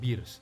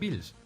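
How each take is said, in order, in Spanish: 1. El nombre se dice con un sonido R. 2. El nombre se dice con un sonido L. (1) "lo más correcto posible sería llamarlo Beers" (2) "eso es incorrecto"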